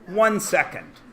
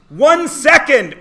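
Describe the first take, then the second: First: It is said at normal, softer volume. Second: It is said more loudly.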